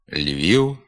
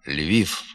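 First: The final sound is a short non-syllabic u. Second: The final sound is a voiceless f. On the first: The speaker calls it right. "Треба говорити" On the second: The speaker calls it wrong. "є ненормативною"

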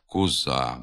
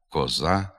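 First: The unstressed first vowel sounds like u. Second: The unstressed first vowel sounds like a clear o. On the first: The speaker calls it wrong. "переходить у звук «у»" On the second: The speaker calls it right. "без ніякого наближення до «у»"

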